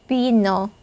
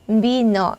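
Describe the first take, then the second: Both takes have the same delivery.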